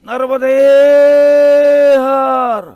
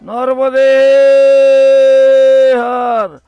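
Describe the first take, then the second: The two takes are said the same way.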